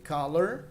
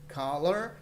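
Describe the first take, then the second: The two takes are said the same way.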